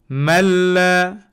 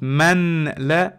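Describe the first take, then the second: First: The n merges fully into the l. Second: The n is pronounced clearly before the l. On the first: The speaker calls it right. "I'm gonna erase the noon and no nasal sound, no gunna" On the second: The speaker calls it wrong. "not man la"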